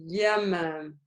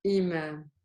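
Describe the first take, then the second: First: Yamam opened with a Y glide; slow yamam, gliding in on "ya". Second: Imam started on a glottal stop; softer imam, clean catch before the i; with the hamza. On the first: Teacher contrasting ya with hamza, Y onset. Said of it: "This is yamam". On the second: Teacher contrasting hamza with ya, glottal stop onset. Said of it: "This is imam". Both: Shown as a demonstration.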